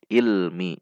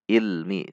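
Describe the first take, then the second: Both takes have the same delivery.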